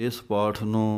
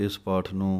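Both takes have the same delivery.

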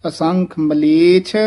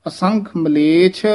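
No difference in how they are said.

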